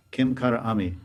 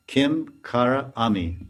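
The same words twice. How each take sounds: First: Said in the usual way. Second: "Kim Kara Ami" slowly, word by word; slow teaching breakdown of "Kim Kara Ami"; broken into words. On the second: Shown as a demonstration. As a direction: separate "Kim", "Kara" and "Ami" with small gaps. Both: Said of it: "So Kinkari means Kim".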